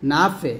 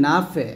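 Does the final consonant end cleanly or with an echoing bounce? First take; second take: bounce; bounce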